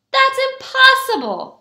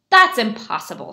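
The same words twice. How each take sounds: First: High, loud exclamation; disbelieving shout. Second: Dismissive scoff in the usual pitch. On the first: People in the houses hearing the news, high shout. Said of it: "shouted the people in the houses". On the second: Tailor doubting button borscht, scoffing. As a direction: brush it off firmly. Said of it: "scoffed Mendel". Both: A narrator's reading.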